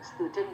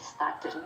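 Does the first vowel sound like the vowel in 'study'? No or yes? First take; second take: no; yes. First: The first vowel is unlike the vowel in 'study'. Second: The first vowel sounds like the vowel in 'study'. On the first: The speaker calls it right. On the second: The speaker calls it wrong.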